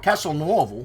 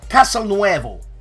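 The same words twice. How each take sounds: First: The name is pronounced the Italian way. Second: The name is pronounced the Spanish way. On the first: The speaker calls it right. "or Castelnuovo, I should say" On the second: The speaker calls it wrong. "for some reason I thought it was Spanish"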